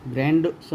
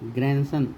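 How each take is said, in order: First: The d sound is pronounced in the middle. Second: The d sound is left out entirely. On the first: The speaker calls it wrong. "ग्रैंडसन नहीं" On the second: The speaker calls it right. "दी का उच्चारण नहीं होता है"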